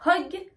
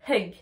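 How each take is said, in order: First: Hug said "hog" with audible h, higher; breathed H, O vowel. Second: Hug with audible h and "eu"; hug, not hog, h sounded; breathed H, E-U vowel. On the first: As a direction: puff of h then rounded o in Hug. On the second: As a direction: puff of h then uh in hug. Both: Shown as a demonstration. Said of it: "je prends ma respiration".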